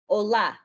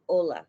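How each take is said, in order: First: The stress is on the last syllable. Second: The stress is on the first syllable. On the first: The speaker calls it right. "put emphasis on the A that has the accent" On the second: The speaker calls it wrong. "as opposed to"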